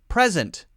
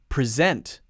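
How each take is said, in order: First: The stress is on the first syllable. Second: The stress is on the second syllable. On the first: It is used as a noun. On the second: It is used as a verb. "verb, present. Present, second syllable is stressed"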